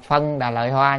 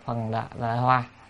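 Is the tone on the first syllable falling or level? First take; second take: level; falling. First: The first syllable has a level tone. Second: The first syllable has a falling tone. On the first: The speaker calls it wrong. "có khi là đọc là phân đà lợi hoa" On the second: The speaker calls it right. "nhưng mà chúng ta nên đọc phần đà lợi hoa"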